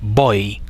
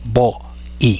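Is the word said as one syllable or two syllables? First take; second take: one syllable; two syllables. First: The vowels glide together in one syllable. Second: The vowels are split into two syllables. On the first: The speaker calls it right. "Se dice voy" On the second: The speaker calls it wrong. "no se dice vo-i"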